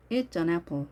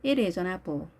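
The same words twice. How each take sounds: First: "It's an apple" with It is cut to It's; short contraction. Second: Said in the usual way. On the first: Shown as a demonstration. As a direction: say "It's an" as one short linked "itsan". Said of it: "이렇게 짧게 하는 것을". (It's an apple을 축약해서 짧게) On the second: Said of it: "이렇게 부드럽게 발음을 합니다".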